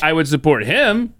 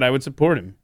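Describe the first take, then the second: First: The word 'him' is stressed. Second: The word 'support' is stressed. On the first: 'Him' points to a new person, Trump. "He didn't say, I would support him. Like, now we're bringing Trump into the conversation" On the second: 'Him' points back to the person already discussed, Biden. "He said, I would support him. Joe Biden, that was the subject"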